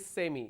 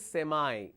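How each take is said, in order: First: It is said with a British accent. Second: It is said with an American accent. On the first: "Americans don't say semi" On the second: "they say semi"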